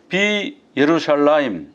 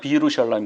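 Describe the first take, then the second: First: The 'ye' syllable is pronounced after 'bi'. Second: The 'ye' syllable is dropped after 'bi'. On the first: "이렇게 발음을 해야 되는데" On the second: "이 사람들은 그냥 비루샬라임 그래요"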